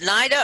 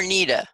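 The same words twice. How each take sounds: First: "Nida" with a long eye vowel, NY-da. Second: "Nida" with a long ee, NEE-da. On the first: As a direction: say "Nida" to rhyme with Ida. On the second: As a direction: say "Nida" with first syllable like knee. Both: Shown as a demonstration. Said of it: "is it Nida or Nida?".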